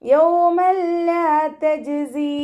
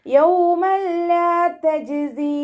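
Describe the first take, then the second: First: യൗമൻ ലാ merged without nasal hum, chanted; correct, no nasal. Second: യൗമൻ ലാ with a wrong nasal hum on the n; the mistaken nasal take of യൗമൻ ലാ; nasalized, wrong. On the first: Teacher models correct യൗമൻ ലാ, chanted. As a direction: recite യൗമൻ ലാ തജ്സി with no ghunna. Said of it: "മണിക്കരുത്". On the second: Teacher demonstrates the nasal mistake on യൗമൻ ലാ. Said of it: "എന്ന് പറഞ്ഞിട്ട് മണിക്കരുത്". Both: Shown as a demonstration.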